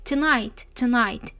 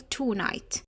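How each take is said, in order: First: The first syllable has a weak reduced vowel. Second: The first syllable has a full o vowel. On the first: The speaker calls it right. "زيها زي برضو كلمة tonight" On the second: The speaker calls it wrong. "مش هنقول tonight"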